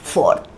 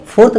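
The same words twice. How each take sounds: First: "फोर्थ" lower and softer as "foht", r silent; correct pronunciation. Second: "फोर्थ" quick, with a clear r; wrong pronunciation. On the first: Teacher modelling for learners, correct "फोर्थ" as soft "foht". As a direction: say "फोर्थ" with long o, no r. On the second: Teacher showing what not to say, wrong "फोर्थ" as "phorth". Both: Shown as a demonstration. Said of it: "अब इसको फोर्थ नहीं बोले".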